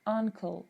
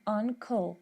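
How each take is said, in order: First: The k and l sounds are kept apart. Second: The same.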